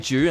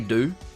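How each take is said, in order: First: It starts with a J sound, Australian style. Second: It starts with a plain D sound. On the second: "I'll switch it up and I will say do"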